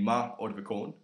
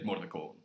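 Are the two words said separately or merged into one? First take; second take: separately; merged. First: The two words are said separately, vowel kept. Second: The words merge into one, first vowel dropped. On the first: The speaker calls it wrong. "instead of being ma ordvikon" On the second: The speaker calls it right. "you just say mordvikon"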